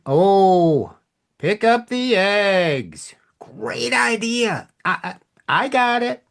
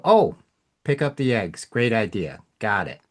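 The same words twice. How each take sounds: First: High, slow, exaggerated sarcasm, partly whispered; sarcastic. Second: Said in the usual way. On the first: Shown as a demonstration. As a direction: drag it out and mock the idea. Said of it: "Same words, whole different meaning". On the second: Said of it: "Versus somebody asking you the same question".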